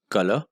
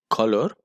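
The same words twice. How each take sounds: First: Said in the usual way. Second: "color" with a rounded O and sounded final r; own pronunciation of color. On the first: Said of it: "instead of color". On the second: Shown as a demonstration. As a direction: say "color" as KAW-lor, with an r. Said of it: "always pronounce it color".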